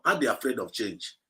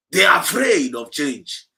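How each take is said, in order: First: Said in the usual way. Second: Slow, loud shout of afraid; shouted declaration. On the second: Real, not acted. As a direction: hammer it out to the crowd. Preacher declaring to the audience.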